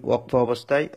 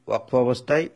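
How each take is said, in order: Both takes have the same delivery.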